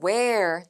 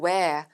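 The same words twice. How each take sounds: First: The final R sound is clearly pronounced. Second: The final R sound is dropped. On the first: "뒤에 있는 art 사운드가 굴려지거나" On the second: "흩날려지거나"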